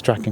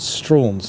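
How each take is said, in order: First: The name is said as Strachan. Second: The name sounds like the word straws. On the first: This follows the family's Ulster Scots origins. The speaker calls it right. "pronounced Strachan because of his uh, Scottish, uh, uh, Ulster Scots origins" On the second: This is how local people say the name. The speaker calls it wrong. "local people pronounce it as Straws"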